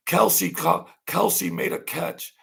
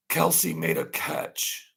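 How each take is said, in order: First: High, excited announcer voice, mocking; mock sportscaster, high and punchy; mock sportscaster call. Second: High, slow, drawn-out announcer call; slow, high mock play-by-play; slow mock sportscaster call. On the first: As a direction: ham up a TV play-by-play call. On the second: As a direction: stretch the call out like a replay. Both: Mocking TV coverage of Kelsey.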